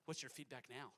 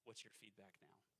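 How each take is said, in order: First: The question is asked in a friendly tone. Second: The question is asked in a curt tone. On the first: The speaker calls it right. "Make sure your tone is a little bit better than that" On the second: The speaker calls it wrong. "that part sounded kind of rude"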